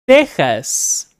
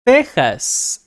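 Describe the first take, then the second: No difference in how they are said.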